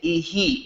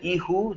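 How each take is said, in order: First: The ending is said with a final 'ee' vowel. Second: The ending is said with a final 'oo' vowel. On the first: The speaker calls it right. "we're going to say ihi instead" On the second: The speaker calls it wrong. "the ihu just doesn't sound right"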